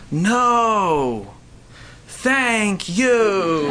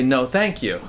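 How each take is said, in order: First: It is said in an upset, whiny way. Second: It is said in a calm, polite way.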